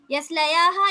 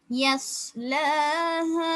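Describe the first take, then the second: First: யஸ்லயாஹா with an added யா; wrong reading. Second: Chanted, யஸ்லஹா very slow and melodic; chanted, intone யஸ்லஹா slowly, with no யா; chanted recitation. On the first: Teacher voicing the students' error. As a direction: say யஸ்லயாஹா quickly as the mistake. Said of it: "இல்ல". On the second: Chanted, teacher intoning the correct form for students. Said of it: "யஸ்லயாஹா இல்ல". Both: Shown as a demonstration.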